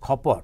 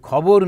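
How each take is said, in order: First: The middle consonant is a voiceless 'p' sound. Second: The middle consonant is a voiced 'b' sound.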